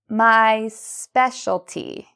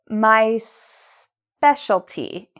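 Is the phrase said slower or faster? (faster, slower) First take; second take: faster; slower. First: The phrase is said at a faster pace. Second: The phrase is said at a slower pace.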